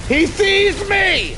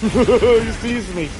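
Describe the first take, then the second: First: High, slow alarmed cry. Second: Said in the usual way. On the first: Real, not acted. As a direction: panic as you're spotted. Game sneak, spotted by enemy.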